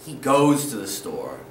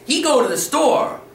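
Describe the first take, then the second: First: "He goes to the store" low and settled, firm fall on goes; correct model. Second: "He go to the store" pitched higher and louder, rising end; wrong grammar demo. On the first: Teacher modelling the correct sentence for students, low calm voice. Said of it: "You wanna sound correct". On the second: Teacher mimicking a learner's mistake for students, high rising voice. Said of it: "You don't wanna sound like this". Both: Shown as a demonstration.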